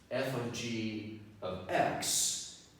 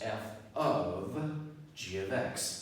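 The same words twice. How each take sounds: First: There is a pause after "g". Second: There is a pause after the first "of". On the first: The two functions are combined first, then applied to x. "I just paused at a different place" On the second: The output of g at x is fed into f. "I just paused at a different place"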